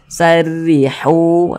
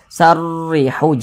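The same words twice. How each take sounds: First: The 'r' sound is light and thin. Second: The 'r' sound is heavy and thick. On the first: The speaker calls it right. "Kita tipiskan huruf ra-nya" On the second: The speaker calls it wrong. "jangan dibaca"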